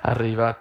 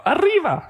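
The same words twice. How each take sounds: First: Said in the usual way. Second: "Arriba" yelled very high and loud, stretched; cartoon arriba shout. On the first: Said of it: "People don't say that". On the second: Shown as a demonstration. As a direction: fling "Arriba" up like a mock fiesta cry. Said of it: "People don't go".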